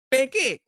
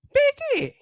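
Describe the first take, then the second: First: Said in the usual way. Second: "Peke" with a much higher, drawn-out pitch; mariing ulit. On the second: Shown as a demonstration. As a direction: sing out "Peke" high in disbelief. (mataas at mariing "Peke")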